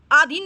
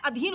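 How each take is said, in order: First: Lifted aa-dheen for आधीन; wrong form shown. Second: Quieter a-dheen for अधीन; correct form shown. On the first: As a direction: hit the first aa of आधीन hard. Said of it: "आधीन नहीं होता है". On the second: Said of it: "अधीन होता है". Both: Shown as a demonstration.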